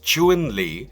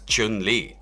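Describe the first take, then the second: First: The name is said with Mandarin pronunciation. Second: The name is said with English-style pronunciation. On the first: The speaker calls it right. "accurately romanized as Chun-Li in pinyin and pronounced" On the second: The speaker calls it wrong. "how commonly Westerners pronounce it as"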